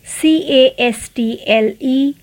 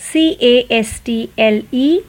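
No difference in how they are said.

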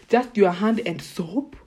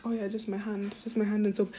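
First: Slow, louder, disbelieving repeat; incredulous echo. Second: Said in the usual way. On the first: Real, not acted. Repeating her friends' shower habit back to them, slow and stunned. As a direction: drag it out like you can't believe it.

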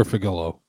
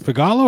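First: "Figalo" as FIG-uh-loh; stress on first syllable. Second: "Figalo" as fih-GAH-loh; stress on second syllable. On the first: Host asking guest about his surname, "Figalo" said FIG-uh-loh. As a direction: hit the start of "Figalo", with a weak middle vowel. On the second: Host asking guest about his surname, "Figalo" said fih-GAH-loh. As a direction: stress the middle of "Figalo", with an open ah. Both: Shown as a demonstration. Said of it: "How do you pronounce it?".

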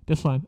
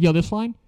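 First: Said in the usual way. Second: Rising, stalling "Yo, this line?" pitched up; stalling question. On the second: Retold or imitated. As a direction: drag out "Yo, this line?" with a high questioning rise. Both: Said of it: "trying to stall the fuck out of it".

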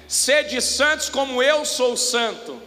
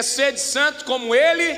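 First: Slow, with "eu" leaned on and falling; slow, weighing the word "eu"; the misquote, said slowly with "eu" falling; stress on eu. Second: "Ele" stressed with a rising tune; the right reading, with "Ele" rising. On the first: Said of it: "o texto bíblico não é". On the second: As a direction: lift the word "Ele" as the key. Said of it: "é". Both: Shown as a demonstration.

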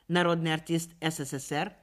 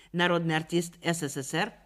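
The two takes are said the same way.

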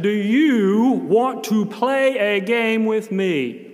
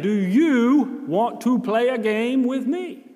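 First: Put-on slow, loud, overly clear words to a child. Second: Dragged out and raised, even more deliberate; slower and louder. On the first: Volunteer to a silent boy, loud and slow. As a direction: spell out every word loudly, as if volume bridges languages. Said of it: "I spoke loudly and I spoke slowly". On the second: Retold or imitated. Volunteer trying again with the boy, slower and pleading. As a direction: try again, stretching each word out. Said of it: "So I tried it again".

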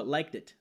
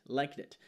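First: "liked it" run together as one word; linked pronunciation. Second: "liked it" repeated softly, joined; linked pronunciation. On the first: Teacher shows how the words join together in speech. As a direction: link "liked it" smoothly. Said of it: "Veja que o liked it". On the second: Teacher repeats the joined pronunciation softly. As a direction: glide "liked it" into one sound. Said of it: "ele soa liked it". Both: Shown as a demonstration.

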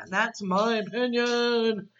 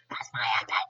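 First: Drawn-out, airy put-on voice; slow, breathy playful sign-off; playful declaration. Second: Much lower put-on echo; jokey deep-voiced restatement; playful low voice. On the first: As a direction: stretch it out, mock-grand and whispery. Jokey sign-off, said twice. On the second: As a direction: drop way down for a mock-deep repeat. Repeats sign-off in low voice.

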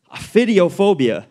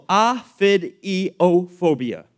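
First: Said in the usual way. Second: OPHIDIOPHOBIA slowly, syllable by syllable; sounded out. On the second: Shown as a demonstration. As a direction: break OPHIDIOPHOBIA into separate, careful pieces. First sounding out a hard term.

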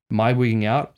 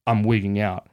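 First: Self-questioning with a rising end; "Am I wigging out?" as a rising question. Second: Matter-of-fact statement, no questioning lift; "I'm wigging out" as a settled statement; answering. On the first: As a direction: ask yourself, lifting the pitch at the end. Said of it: "I asked myself". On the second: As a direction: answer your own question plainly. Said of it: "answered my own question by saying". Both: Retold or imitated.

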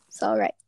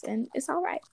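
First: Low, deep echo of all right; dropped low repeat. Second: Said in the usual way. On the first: Shown as a demonstration. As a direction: pitch sinks way down on the repeat.

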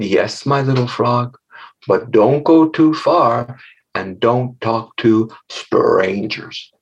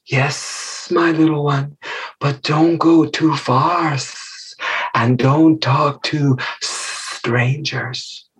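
First: Slow, careful motherly warning; lightly voiced mother frog. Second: Slow warning with drawn-out s sounds; hissing mother snake. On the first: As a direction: gently play a cautioning frog mama. Mother frog warns her child. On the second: Acted. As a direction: stretch every S into a snake's hiss.

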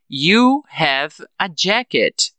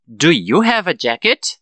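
First: Slow, with "jacket" falling at the end; affirmative statement. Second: "jacket" rising at the end; question intonation. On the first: Teacher recaps the affirmative sentence for students, slow falling statement. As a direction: state it slowly, letting "jacket" drop. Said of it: "na afirmativa". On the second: Teacher shows learners how the question sounds, rising intonation. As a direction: ask it carefully, lifting the end of "jacket". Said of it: "Muito importante a entonação de pergunta". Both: Shown as a demonstration.

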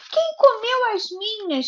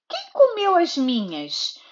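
First: Higher, whiny little bear voice; whimpering baby bear. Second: A touch higher, lightly voiced mother bear; the mother bear asking, only lightly voiced. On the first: Acted. Mother voicing the baby bear for her daughter, whimpering. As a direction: whimper it like a small bear cub. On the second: Mother reading to her daughter, hint of a mother bear. Mother bear's line, set against the baby's.

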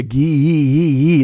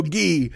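First: "gi" stretched into many rippling ee sounds; drawn-out gi. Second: Said in the usual way. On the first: Shown as a demonstration. Comic mocking his own outfit, "gi" with a long stretched ee. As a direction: hold the vowel of "gi" long, as if spelt with several i's. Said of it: "There'll be several eyes". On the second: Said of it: "I can't just go gi".

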